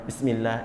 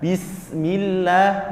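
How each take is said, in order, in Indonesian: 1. Suku kata pertama diucapkan tidak jelas. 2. Suku kata pertama diucapkan dengan jelas. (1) "itu belum benar" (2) "Yang benar adalah"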